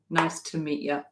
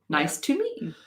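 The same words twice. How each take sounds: First: The small words have reduced, schwa-like vowels. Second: The small words have full, clear vowels. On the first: "if you know what a schwa is" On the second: "Or if you don't want to do that"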